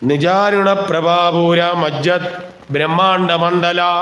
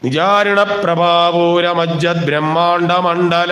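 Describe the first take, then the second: First: The words are split apart by pauses. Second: The words run together as one unit. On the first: The compound is broken into separate words. The speaker calls it wrong. "എന്ന് ചൊല്ലിയാൽ തെറ്റാ" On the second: The compound is kept as a single word. The speaker calls it right. "ഒറ്റപ്പദവാ"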